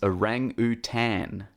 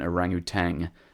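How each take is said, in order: First: The word ends in 'tan' with no final G. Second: The word ends in 'tang' with a final G. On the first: The speaker calls it right. "So it's orangutan" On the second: The speaker calls it wrong. "rather than orangutan"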